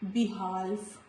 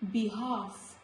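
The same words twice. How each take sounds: First: An L sound is pronounced before the F. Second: No L sound is heard before the F. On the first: The speaker calls it wrong. "not behalf" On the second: The speaker calls it right. "Letter L is silent before letter F"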